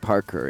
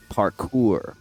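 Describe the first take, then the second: First: The word ends in a short 'ker' sound. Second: The word ends in a long 'koor' sound. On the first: The speaker calls it wrong. "it's not Parker" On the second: The speaker calls it right. "it's parkour"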